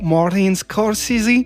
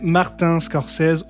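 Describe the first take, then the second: First: The name is said with American pronunciation. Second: The name is said with French pronunciation.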